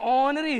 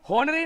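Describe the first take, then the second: First: The word starts with a vowel sound. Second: The word starts with an h sound. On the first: The speaker calls it right. "ऑनरी है" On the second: The speaker calls it wrong. "होनरी नहीं है"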